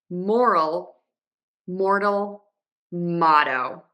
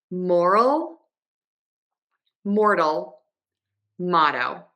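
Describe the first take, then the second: The two takes are said the same way.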